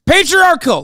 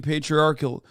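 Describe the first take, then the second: First: Patriarchal! yelled much higher and louder, every syllable hammered; shouted word. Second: Said in the usual way. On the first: Shown as a demonstration. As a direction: scream Patriarchal! to prove you can say it. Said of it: "Is that good? Did I say it right?". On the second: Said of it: "you have been saying patriarchal for ten years".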